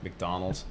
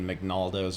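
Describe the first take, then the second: First: The name is said in its usual form: McDonald's. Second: The name is said with syllables swapped: McNaldo's. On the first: The speaker calls it right. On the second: The speaker calls it wrong.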